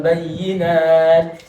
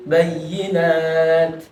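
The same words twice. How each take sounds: First: Bayyinat, slowly pulled apart; wrong way. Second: Bayyinat in one go; right way. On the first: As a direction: bayyinat with a break before nat. (bayyinat salah, dipisah) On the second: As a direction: bayyinat with nat straight after. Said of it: "bukan bayyinat". (bayyinat langsung) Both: Shown as a demonstration.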